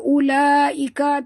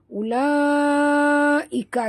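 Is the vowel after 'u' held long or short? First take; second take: short; long. First: The vowel after 'u' is cut short. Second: The vowel after 'u' is held long. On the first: The speaker calls it wrong. "Jangan baca ulaika, tak betul" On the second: The speaker calls it right. "Ulaika sini panjang"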